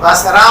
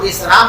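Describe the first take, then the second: First: The first syllable has an "a" vowel. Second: The first syllable has an "i" vowel. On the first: This is the more widely used form. "फतहा आवाम के अंदर ज्यादा मशहूर है, इसलिए लोग बसरी कहते हैं" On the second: This is the less widely used form. "कसरा"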